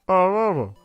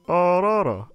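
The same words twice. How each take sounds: The two takes are said the same way.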